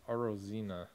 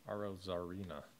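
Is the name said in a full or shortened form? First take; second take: shortened; full. First: The name is said with syllables dropped. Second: The name is said with all its syllables. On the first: The speaker calls it wrong. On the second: The speaker calls it right.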